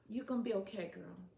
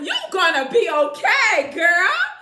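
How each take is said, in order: First: It is said flatly, without enthusiasm. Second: It is said with lively enthusiasm.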